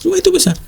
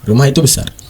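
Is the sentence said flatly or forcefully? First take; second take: forcefully; flatly. First: It is said with a hard, forceful intonation. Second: It is said in a flat, neutral tone. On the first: The listener already knows; it is only being stressed. "adanya intonasi yang keras" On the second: It simply gives information. "itu info"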